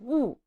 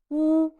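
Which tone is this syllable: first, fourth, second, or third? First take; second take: fourth; first. First: The pitch falls sharply from high. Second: The pitch stays high and level. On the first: "and fourth tone" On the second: "these are the first tones"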